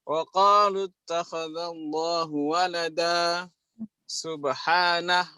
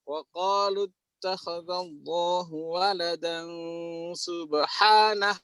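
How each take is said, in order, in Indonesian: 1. Ada jeda sebelum kata terakhir. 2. Kata-katanya tersambung tanpa jeda. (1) "itu ada jim di situ" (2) "harus disambung"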